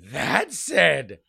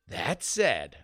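First: It is read in a put-on angry voice. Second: It is read in a plain, neutral voice.

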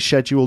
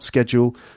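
First: It is said the British English way. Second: It is said the American English way. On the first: "I do say schedule, This is British English" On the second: "not schedule, not American English"

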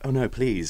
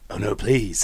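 First: It is said in a plain, ordinary voice. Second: It is said in a put-on, seductive voice.

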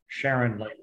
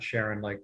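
First: It sounds like the woman's name Sharon. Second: It sounds like the word sharing, sharin'. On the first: The speaker calls it right. "like a woman's name" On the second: The speaker calls it wrong. "splitting things up"

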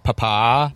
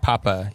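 First: The stress is on the second syllable. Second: The stress is on the first syllable. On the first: The speaker calls it right. "Put a little stank then, on that second syllable" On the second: The speaker calls it wrong. "You don't say papa"

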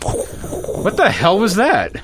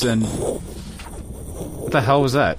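First: It is said with much more emotion. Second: It is said flatly, with little emotion.

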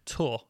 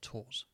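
First: The word ends without an S sound. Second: The word ends with an S sound. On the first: The speaker calls it right. "To tour" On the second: The speaker calls it wrong. "not tours. You don't pronounce the S"

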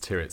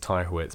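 First: The name is pronounced differently from its spelling. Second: The name is pronounced as it is spelled. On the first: The speaker calls it right. "but it's Tyrwhitt's" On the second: The speaker calls it wrong. "you read it and think it's Tyrwhitt's"

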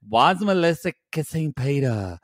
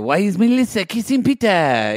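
First: It is spoken in the speaker's ordinary accent. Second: It is spoken in a put-on French accent. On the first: "Is that your French accent? Oh, no. I forgot he was French" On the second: "he would say, ... There it is"

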